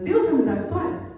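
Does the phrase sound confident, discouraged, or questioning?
questioning. It is said as a doubtful question. The person now doubts the promise. "já vira uma pergunta"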